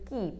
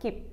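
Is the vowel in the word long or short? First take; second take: long; short. First: The vowel is long, like in feet. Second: The vowel is short, like in ship. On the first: The speaker calls it right. "it is keep, K-E-E-P" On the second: The speaker calls it wrong. "It is not keep"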